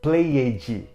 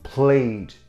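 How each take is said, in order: First: The ending adds a vowel and a j-like sound. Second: The ending is a bare d, no extra vowel. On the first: The speaker calls it wrong. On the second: The speaker calls it right.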